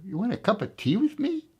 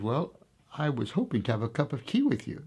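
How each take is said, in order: First: Pitched much higher in disbelief; incredulous. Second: Said in the usual way. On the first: Retold or imitated. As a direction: react like the offer is absurd. Commander can't believe it.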